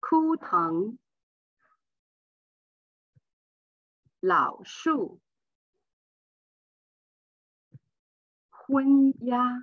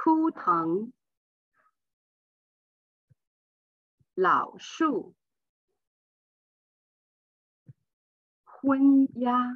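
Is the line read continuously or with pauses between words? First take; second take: paused; paused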